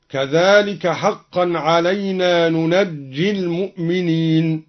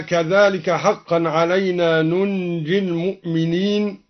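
First: ننجي read nunajji, jim stressed double; ننجي بفتح النون وتشديد الجيم; open nun, doubled jim. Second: Said in the usual way. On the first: Shown as a demonstration. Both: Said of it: "بفتح النون وتشديد الجيم هكذا".

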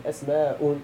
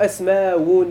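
First: "أسماء" as as-MAA-un, with a glottal stop before un; softer "أسماء", pronounced asmaa'un; waw turned to hamza. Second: "أسماء" as as-MAA-wun, ending with a w sound; "أسماء" pronounced asmaawun, no glottal stop; original form with waw. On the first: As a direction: break "أسماء" with a hamza after the long aa. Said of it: "وجب قلبها همزة". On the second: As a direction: glide into a clear wun at the end of "أسماء". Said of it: "يعني أصله أسماء بالواو". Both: Shown as a demonstration.

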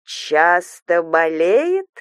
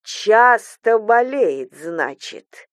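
First: Very slow, menacing question; slow, dangerous echo; insinuating hiss. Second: Slow repeat, dropping away at the end; slow, ominous falling statement; menacing echo. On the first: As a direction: draw it out silkily, rising at the end. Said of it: "вкрадчиво прошипела свекровь". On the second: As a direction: chew over the words as a threat. Mother-in-law repeats it menacingly. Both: A narrator's reading.

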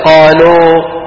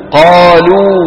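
First: قالوا ending in an open "oh", like "qaloh"; waw as English O. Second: قالوا ending in a pure long "oo"; pure Arabic waw. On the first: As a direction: finish قالوا on a long English-style oh. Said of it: "وليس". (قالوا بواو مفتوحة مثل O الإنجليزية) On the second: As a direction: round the lips to a clear oo at the end of قالوا. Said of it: "الواو العربية أو". (قالوا بواو عربية صافية) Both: Shown as a demonstration.

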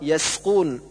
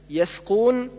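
First: يسقون with a clear s; correct seen. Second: يثقون lisped with th for س; tongue between teeth in يثقون, no s; seen as th. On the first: Teacher correcting, يسقون with proper s. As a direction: keep a sharp س in يسقون. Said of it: "والصواب". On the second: Teacher showing the reverse error, lisped th in يثقون. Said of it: "كالنطق بالسين ثاء". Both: Shown as a demonstration.

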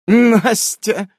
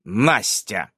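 First: High, loud character echo; amused echo. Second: НАСТЯ set apart, low and falling; stressed word. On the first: Nasa smirks at the player's word, high amused echo. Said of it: "усмехается Наса". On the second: Player asks Nasa about the name, НАСТЯ stressed low and deliberate. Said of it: "выделяя слово ударением". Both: A narrator's reading.

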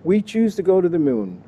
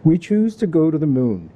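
First: Plain Canadian accent, pitched up; your own Canadian accent, jokingly; lightly voiced Canadian accent. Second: Put-on a lightly done New England accent, JFK style; mild New England accent doing JFK. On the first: Shown as a demonstration. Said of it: "My Canadian accent, however, is really good". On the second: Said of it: "but I'll do my best".

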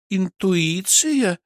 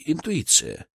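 First: High, drawn-out sceptical echo; stretched, questioning disbelief; doubtful. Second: Said in the usual way. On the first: Acted. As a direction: repeat it slowly, full of doubt. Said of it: "с сомнением посмотрела на меня Кристина".

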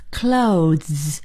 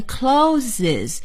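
First: "Clothes" in one syllable, long buzzing z ending; correct clothes pronunciation. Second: "closes" in two syllables, clo-ziz; mispronounced clothes. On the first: Teacher giving students the right way, "Clothes" as one syllable. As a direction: glide "Clothes" straight into a drawn-out z. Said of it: "正确的说法应该是什么呢". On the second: Teacher showing students the common mistake, "closes" as clo-ziz. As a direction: say "closes" with an extra vowel before the final s. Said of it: "这是错误的". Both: Shown as a demonstration.

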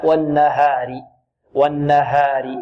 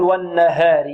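First: Slow والنهار with pure open "haa", held n; correct open alif. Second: والنهار with long a bent to "eh", "wannaheeri"; wrong imala. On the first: Teacher corrects the tilted vowel, low slow tajweed. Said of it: "لا". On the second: Teacher shows what not to say, tilted vowel. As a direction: tilt the alif of والنهار toward e. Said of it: "لا نميل الألف". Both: Shown as a demonstration.

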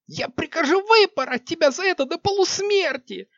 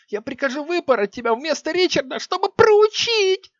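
First: High screaming threat, stress on выпороть; furious shrieking threat. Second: High screaming threat, stress on Ричарда; furious shrieking threat. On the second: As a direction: shriek it, landing hard on Ричарда. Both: Acted. Queen threatening flogging.

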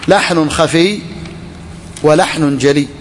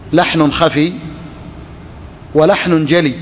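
The two takes are said the same way.

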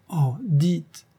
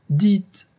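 First: High, rising 'dites', coaxing; eager plea. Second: 'dites!' much higher and louder, urging; insistent plea. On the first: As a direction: gently beg him with a lifted 'dites'. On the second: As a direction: press him hard with a loud high 'dites!'. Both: Acted. Lover begging him to speak.

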